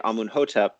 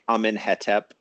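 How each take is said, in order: First: The name has varied vowels, including u and o. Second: Every vowel in the name is an e sound. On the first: The vowels are borrowed from a much later stage of the language. "that matches the the Coptic vowels in those words" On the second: Nothing is known about the real vowels. "they just put E sounds between all of the consonants"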